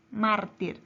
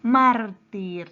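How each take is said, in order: First: Said in the usual way. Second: Mártir loud, MÁR punched hard; loud, slow teacher's Mártir, first syllable strongest; stress on MÁR. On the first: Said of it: "Siguiente palabra es". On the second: Shown as a demonstration. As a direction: hit the MÁR of Mártir and draw it out. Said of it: "su sílaba tónica está en la".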